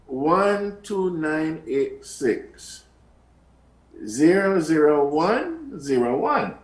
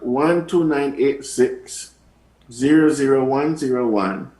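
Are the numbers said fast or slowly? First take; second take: slowly; fast. First: The numbers are said slowly. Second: The numbers are said quickly.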